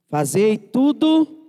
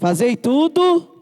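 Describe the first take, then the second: First: It is said weakly, with little force. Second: It is said forcefully, with more energy.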